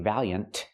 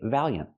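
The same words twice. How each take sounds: First: The final T is fully released. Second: The final T is stopped, not released. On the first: "You don't have to say valiant" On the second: "The T is a stop T. You can say valiant"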